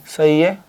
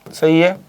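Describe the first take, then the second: No difference in how they are said.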